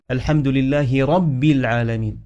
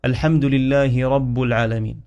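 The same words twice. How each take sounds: First: رب ending in i, rabbi; kasra on رب. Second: رب ending in u, rabbu; mistaken vowel on رب. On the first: Teacher modelling the correct reading, رب said as rabbi. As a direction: join رب to the next word with an i. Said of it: "ربي بالكسرة". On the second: Teacher showing a common mistake, رب said as rabbu. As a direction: misread رب with a u ending. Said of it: "البعض يقرأ". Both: Shown as a demonstration.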